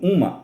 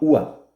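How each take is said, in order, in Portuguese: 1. O som do M no meio é claramente pronunciado. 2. O som do M no meio é omitido. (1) "Com o M do artigo indefinido feminino" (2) "é inaudível"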